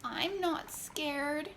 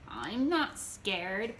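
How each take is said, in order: First: Slow, higher whimper; drawn-out scared whimper. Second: Bragging. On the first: Wet Jeremiah drying off in the sun, slow whimper. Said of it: "whimpered Jeremiah". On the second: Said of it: "bragged Jeremiah". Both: A narrator's reading.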